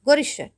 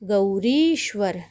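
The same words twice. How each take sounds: First: The second-syllable vowel is clipped short. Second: The second-syllable vowel is held long. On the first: The speaker calls it wrong. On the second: The speaker calls it right.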